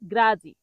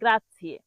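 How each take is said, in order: First: It ends in a short 'zee' sound. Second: It has a 'ts' sound and ends 'ee-eh'. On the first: The speaker calls it wrong. "অনেক বাঙালি এই গ্রাৎসিয়েকে গ্রাজি বলে।" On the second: The speaker calls it right. "কিন্তু সঠিক উচ্চারণ হবে"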